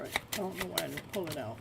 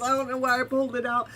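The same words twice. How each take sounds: First: Softer, quick aside to herself; quiet puzzled aside while shuffling cards; puzzled murmur. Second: Louder and fast, still buzzing; fast excited aside; excited disbelief. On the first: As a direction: mutter it, half to yourself. Puzzled the Empress wasn't pulled. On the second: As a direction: rattle it off in thrilled disbelief. Empress card reappears. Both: Real, not acted.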